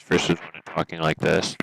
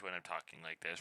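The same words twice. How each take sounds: First: Much louder, right up on the mic; loud mic test. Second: Said in the usual way. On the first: Shown as a demonstration. Streamer testing audio for the chat, booming loud. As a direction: boom it into the microphone. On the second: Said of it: "Does it make a difference".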